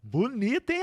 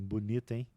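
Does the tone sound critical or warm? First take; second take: warm; critical. First: It sounds warm and affectionate. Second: It sounds critical and ironic. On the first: The remark is a compliment. "pô, fiquei bonito, caraca" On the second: The remark is a reproach. "essa comunicação te deixou tenso"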